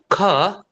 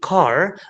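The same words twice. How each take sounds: First: The final r is silent, British style. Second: The final r is pronounced.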